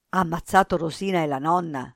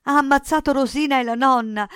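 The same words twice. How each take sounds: First: Said in the usual way. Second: High, loud, horrified outburst; terrified boy shouting; frantic cry. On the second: A narrator's reading. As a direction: cry out the terrible news in panic. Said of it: "gridò Cinto".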